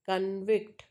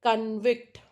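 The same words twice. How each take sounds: First: ConVICT, second syllable stressed; stress on VICT. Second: CONvict, first syllable stressed; stress on CON. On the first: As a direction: put the weight on VICT in convict. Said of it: "stress mark is on vict". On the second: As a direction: hit CON in convict, louder. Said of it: "stress mark is on con". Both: Shown as a demonstration.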